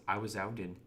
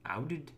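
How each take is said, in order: First: Said in the usual way. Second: A light accidental Canadian accent on 'Outed?', rising; a brief, unintended Canadian accent on a puzzled question. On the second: Real, not acted. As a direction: let 'Outed?' slip into a hint of Canadian accent. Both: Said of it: "I sounded like Canadian".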